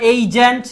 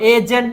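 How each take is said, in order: First: The first vowel glides from 'e' toward 'i'. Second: The first vowel is a plain, steady 'e'. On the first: The speaker calls it right. "না এইজেন্ট" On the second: The speaker calls it wrong. "এজেন্ট না"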